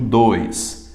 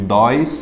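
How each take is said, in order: First: The o vowel is pronounced closed. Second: The o vowel is pronounced open. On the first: The speaker calls it right. "eu digo dois. É fechado" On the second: The speaker calls it wrong. "Eu não digo dois"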